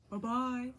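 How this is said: It is said in a big, gruff voice.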